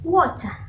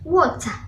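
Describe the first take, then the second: First: It is said in a Southern British accent. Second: The same.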